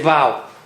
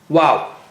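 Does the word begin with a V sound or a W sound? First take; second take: V; W. First: It begins with a V sound, lips not rounded. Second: It begins with a W sound from rounded lips. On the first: The speaker calls it wrong. "it's not like letter V. Don't say wow" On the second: The speaker calls it right. "First make the lips round and then separate them"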